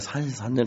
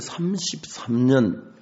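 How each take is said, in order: First: The consonants are slurred, sounding like sansisannyeon. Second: The consonants are clear, sounding like samsipsamnyeon. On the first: The speaker calls it wrong. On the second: The speaker calls it right.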